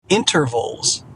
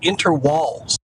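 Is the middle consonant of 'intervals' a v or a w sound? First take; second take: v; w. First: The middle consonant is a plain v sound. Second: The middle consonant is a w sound.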